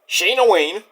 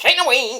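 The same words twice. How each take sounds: First: The name is said at a normal pace. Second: The name is said very quickly.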